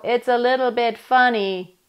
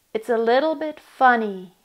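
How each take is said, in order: First: Said in the usual way. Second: "little bit funny" spoken, leaning on "little"; spoken with dynamics. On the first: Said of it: "See, I'm not going". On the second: Shown as a demonstration. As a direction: speak "It's a little bit funny" with rise and fall. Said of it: "Notice what happens when I speak".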